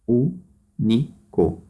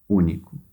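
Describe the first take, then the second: First: "Único" slowly split into ú, ni, co; teacher counting out the three syllables of "Único". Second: Said in the usual way. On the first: Shown as a demonstration. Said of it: "três sílabas".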